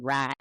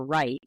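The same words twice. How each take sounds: First: "right" said like "rat"; Southern vowel in right. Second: Said in the usual way. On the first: Shown as a demonstration. Linguist showing an accidental slip, "right" as "rat". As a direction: say "right" with a glideless "ah". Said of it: "I accidentally said". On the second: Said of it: "for right".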